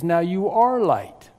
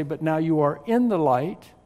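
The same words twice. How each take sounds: First: ARE drawn out and driven home; slowly, with a firm punch on ARE; stress on ARE. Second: IN picked out, rising toward light; stress on IN. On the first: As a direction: lean hard on the word ARE. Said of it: "It says". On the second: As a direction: lean on IN as the wrong wording. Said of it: "It doesn't say". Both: Shown as a demonstration.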